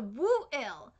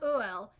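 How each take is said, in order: First: The name begins with a clear W sound. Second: The name begins with a plain vowel sound. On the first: This is the name used in the manga. "there's a W there" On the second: This is the name used in the anime. "The anime calls the dragon a Uel"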